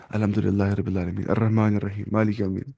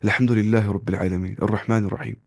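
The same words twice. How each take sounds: First: "الحمدللہ رب العالمین" in a Kashmiri accent, plain h, no throat sounds; lower-pitched imitation of Kashmiri-style Quran reading; Kashmiri-accented recitation. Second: "الحمدللہ رب العالمین" with throaty Arabic h and ain; correct Arabic pronunciation. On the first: Teacher shows students what to avoid, Kashmiri-accented recitation. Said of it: "ویسے وہ کشمیر والا قرآن جو پڑھتے ہیں". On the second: Teacher models proper recitation after the wrong one, Arabic articulation. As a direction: articulate "الرحمن الرحیم" with a deep Arabic h. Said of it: "ایسے نہیں پڑھنا چاہیے۔".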